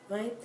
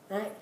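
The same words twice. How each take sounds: Both takes have the same delivery.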